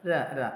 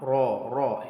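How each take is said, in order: First: The r is said light and thin. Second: The r is said heavy and full-mouthed. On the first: The speaker calls it right. "നേർപ്പിച്ച് പറഞ്ഞു" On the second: The speaker calls it wrong. "കനപ്പിച്ച് പറയാതെ"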